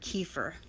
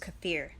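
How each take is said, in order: First: Kefir is said the way the speaker used to. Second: Kefir is said the way the speaker now uses. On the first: This is the habitual but mistaken pronunciation. The speaker calls it wrong. "I've been pronouncing this word kefir" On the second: This is the correct pronunciation. The speaker calls it right. "now I know it's kefir"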